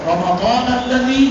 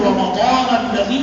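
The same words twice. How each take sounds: Both takes have the same delivery.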